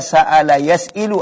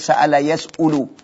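First: The vowel after the hamza is i. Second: The vowel after the hamza is u. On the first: "Enggak bisa dibaca" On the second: "Enggak bisa dibaca"

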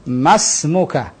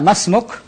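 First: The word ends with a final '-a' vowel. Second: The word ends on the consonant 'k'. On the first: "ana hidupkan semua harokat" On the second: "Dalam dialog misalnya masmuk, nah cukup"

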